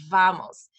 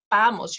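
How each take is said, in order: First: "vamos" with teeth on the bottom lip; English hard V. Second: "vamos" started with lips, as "bamos"; no teeth, a B to begin "vamos"; Spanish B-like V. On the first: Teacher demonstrating the English V, teeth on lip. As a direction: buzz the V at the start of "vamos". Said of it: "your teeth are on top of your bottom lip". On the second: Teacher contrasting with English, B-like Spanish V. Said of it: "But in Spanish, it's". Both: Shown as a demonstration.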